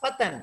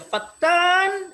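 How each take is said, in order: First: The word is said with short sounds. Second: The word is said with a lengthened sound. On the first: It means a young man. "itu anu nama saya, hei pemuda" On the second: It means a slanderer. "itu artinya tukang fitnah"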